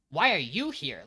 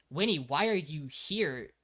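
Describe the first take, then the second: First: Blunt challenge, firm on "why are you here"; imitating a puzzled anime line; anime-style questioning. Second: Slow, measured "Winnie, why are you here"; imitating a grave, weighted question; manga-style reproach. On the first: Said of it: "if you're watching the anime, comes out as". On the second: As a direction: ask it slowly and seriously. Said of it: "in the manga, this scene would be portrayed as".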